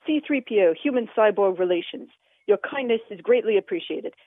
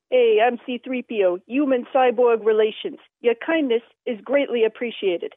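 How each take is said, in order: First: Said in the usual way. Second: A light hint of a Bronx used car dealer, sarcastic; sarcastic New York accent. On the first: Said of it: "it was more like". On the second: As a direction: toss off the line like a wisecracking New York hustler. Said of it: "It was more of a sarcastic line".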